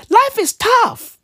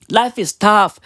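First: Much higher and slow; mock-sigh it up high; high-pitched sarcastic consolation; high slow mock sympathy. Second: Said in the usual way. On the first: Mock voice then plain repeat.

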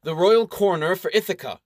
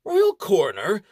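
First: Royal stated boldly with a falling close; bold announcement. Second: Royal coroner rising in disbelief; incredulous question. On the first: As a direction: announce royal coroner proudly. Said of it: "with a bold air". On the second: Baron doubts the title. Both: Acted.

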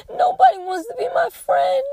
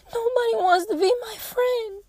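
First: High, loud tearful wail; imitating a sobbing child. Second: Put-on high, teary child's wail; imitating a crying child. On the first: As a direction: cry it out like a heartbroken little girl. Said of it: "And she cried her eyes out". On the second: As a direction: mimic a little girl sobbing. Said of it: "She immediately started crying".

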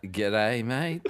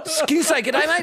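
First: Soft, tentative, rising "g'day, mate"; unsure, half-questioning greeting back; hesitant reply. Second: Very high, eager mock voice; gushing attempt at "g'day, mate"; excited American greeter. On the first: Retold or imitated. Australian answering over-excited Americans, hesitant. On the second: Imitating Americans greeting an Australian, over-excited.

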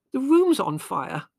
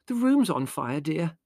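First: High, loud, drawn-out cry; urgent alarm. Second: High but contained, softening at the end; motherly explanation. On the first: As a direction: stress the danger to someone half asleep. Urgent alarm to sleepy son. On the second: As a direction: tell your son patiently, easing off on the endearment. Mother explains gently to indignant son. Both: A narrator's reading.

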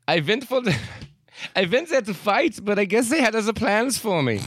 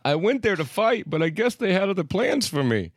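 First: High, strong mock German accent. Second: Put-on German accent. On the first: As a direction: read it as a German man. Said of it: "saying this in a German accent". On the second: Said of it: "Is that a German accent?".

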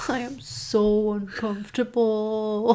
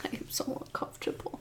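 First: Slow, voiced groan of unease; drawn-out discomfort. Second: Fast, hushed whisper; uncomfortable whisper. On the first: Reacting to an awful story, slow drawn-out unease. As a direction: stretch it out, trailing into discomfort. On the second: Reacting to an awful story, uncomfortable whisper. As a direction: whisper it quickly, barely audible. Repeats discomfort in two contrasting ways. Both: Real, not acted.

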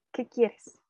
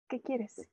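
First: Groggy annoyance. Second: Curt reply. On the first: Retold or imitated. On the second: Shown as a demonstration. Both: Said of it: "esa fue mi expresión".

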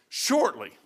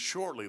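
First: Shortly stretched and falling, savored; drawn-out Shortly. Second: Said in the usual way. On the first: Retold or imitated. Preacher savoring a scripture word, Shortly drawn out and falling. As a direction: lean into Shortly like quoting scripture. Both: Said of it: "I like the way he says shortly".

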